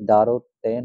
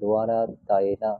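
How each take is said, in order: First: The word starts with a dv cluster. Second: The word starts with a separate do syllable. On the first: The speaker calls it wrong. "যে দ্বারো তেন আছে" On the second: The speaker calls it right. "এটা দোয়ারা তায়না"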